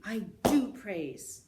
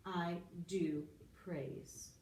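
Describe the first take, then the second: First: I do praise with DO punched loud and slow; emphatic do. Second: Said in the usual way. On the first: Shown as a demonstration. Teacher demonstrating the emphatic present, DO hammered loud. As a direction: stomp and hit the word do hard. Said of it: "I like to stomp my feet". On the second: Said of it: "that's the emphatic present".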